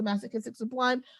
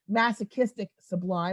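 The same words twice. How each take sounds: First: It is said at a normal pace. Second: It is said slowly and deliberately.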